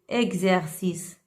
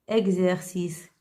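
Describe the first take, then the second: No difference in how they are said.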